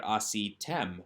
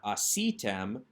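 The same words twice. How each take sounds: First: Asitem with the accent drawn to "tem" at the end; stress on the last syllable. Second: Asitem with the stress early, on "a"; stress on the first syllable. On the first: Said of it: "so it draws the accent". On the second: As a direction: say asitem the wrong way, stress not at the end. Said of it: "this is a strong ending ... so it draws the accent". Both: Shown as a demonstration.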